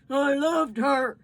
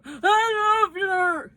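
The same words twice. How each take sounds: First: Slow, heavy grieving words. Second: Slow, higher sobbing voice; crying. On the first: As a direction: hold back the tears. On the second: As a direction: let it break into sobs. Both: Acted. Father weeping over dead daughter.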